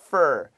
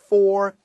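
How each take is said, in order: First: The vowel is short and reduced, like fur. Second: The vowel is a full, long o sound. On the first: The speaker calls it right. "We say it shorter" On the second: The speaker calls it wrong. "we don't say for"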